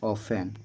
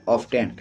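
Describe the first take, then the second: First: "ऑफेन" said without the t; silent T. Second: "ऑफ्टन" said with an audible t; common pronunciation. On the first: Teacher repeating the real pronunciation, silent T in "ऑफेन". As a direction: go from f straight to the vowel in "ऑफेन". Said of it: "इसमें टी जो है वो silent होता है". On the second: Teacher answering how people will read it, T sounded in "ऑफ्टन". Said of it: "इसको क्या पढ़ेंगे?". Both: Shown as a demonstration.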